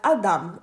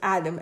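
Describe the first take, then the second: First: It is said with a Hebrew pronunciation. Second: It is said with an English pronunciation. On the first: The speaker calls it right. "it's pronounced in Hebrew as Adam" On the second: The speaker calls it wrong. "It's not pronounced as Adam. Adam is an anglicized word for it"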